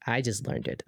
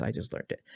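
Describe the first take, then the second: First: Said in the usual way. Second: Soft unvoiced whisper, much quieter; whispered confession. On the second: Shown as a demonstration. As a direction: whisper it like a sheepish admission. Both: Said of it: "I'm just gonna be honest".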